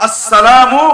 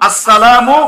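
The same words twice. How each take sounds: No difference in how they are said.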